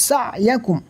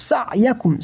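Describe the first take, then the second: Both takes have the same delivery.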